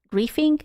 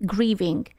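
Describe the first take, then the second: First: Grieving said as "grifing" with an f, rising like a question; unsure "grifing" pronunciation. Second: "Grieving." with a clear v, falling and settled; corrected "grieving" with a v; corrected pronunciation. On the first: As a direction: try "Grieving?" with an f sound where the v goes. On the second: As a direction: land "Grieving." firmly with a proper v. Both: Shown as a demonstration. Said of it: "Not grieving, that's different".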